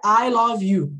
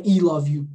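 First: "I" said as "eye" in "I love you"; a clear "eye" opening "I love you"; English pronunciation. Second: "I" said as "ee" in "I love you"; Portuguese misreading. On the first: Teacher explaining the sound of I, English pronunciation. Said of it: "não é I love you". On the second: Teacher ruling out the wrong sound, mispronounced. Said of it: "não é". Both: Shown as a demonstration.

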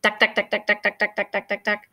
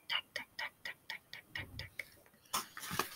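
First: Jackhammer sound. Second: Jackhammer taps fading into a whisper. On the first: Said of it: "It makes a loud banging sound". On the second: Walking past the roadworks, jackhammer fading to a whisper. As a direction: let the tucks die away to breath. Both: Acted.

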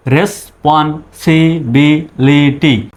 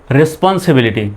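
First: responsibility slowly, one syllable at a time; broken into syllables. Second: Said in the usual way. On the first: Shown as a demonstration. Teacher sounding out the spelled word, responsibility syllable by syllable. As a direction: split responsibility into separate syllables. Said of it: "আগে ভেঙে ভেঙে উচ্চারণ করবেন". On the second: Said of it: "এবার একসঙ্গে বলুন".

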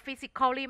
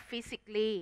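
First: "physically" as fi-sik-KHAW-lee, four syllables; wrong pronunciation. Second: "physically" as FI-sik-lee, three syllables; correct pronunciation. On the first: Teacher showing students what not to say, "physically" with full -khaw-lee. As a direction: sound out the "-cal-" in "physically". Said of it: "มันจะไม่อ่านว่า". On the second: Teacher modelling the reading for students, "physically" shortened to fi-sik-lee. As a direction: drop the "-al-" in "physically". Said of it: "มันจะอ่านว่า". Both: Shown as a demonstration.

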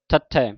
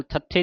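First: ਥੱਥੈ ending in an open "ai". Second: ਥੱਥੇ ending in a closed "e"; wrong vowel ending. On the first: Teacher shows the correct letter name, ਥੱਥੈ with open final "ai". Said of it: "ਦਲਾਵਾਂ ਦੇ ਨਾਲ". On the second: Teacher shows what to avoid, ਥੱਥੇ with closed final "e". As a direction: say ਥੱਥੇ with a narrow final "ay" sound. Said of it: "ਨਹੀਂ ਕਹਿ ਦੇਣਾ". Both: Shown as a demonstration.

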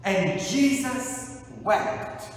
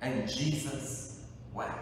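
First: "And Jesus wept." slow, with JESUS raised; slow emphatic quote. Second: "And Jesus wept." said softly, falling away; hushed quote. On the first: Preacher proclaiming the verse to the congregation, slow. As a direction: lift each word of "And Jesus wept.". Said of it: "Three words". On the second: Preacher moved by the verse, repeating it softly. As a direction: let "And Jesus wept." fall quiet. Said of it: "nothing that moves me like those three words". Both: Shown as a demonstration.

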